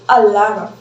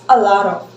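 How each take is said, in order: No difference in how they are said.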